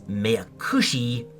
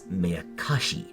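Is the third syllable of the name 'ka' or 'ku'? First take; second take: ku; ka. First: The third syllable is pronounced 'ku'. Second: The third syllable is pronounced 'ka'. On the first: The speaker calls it wrong. "I persistently refer to one of the answer rocks as Meakushi" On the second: The speaker calls it right. "when in fact it's Meakashi"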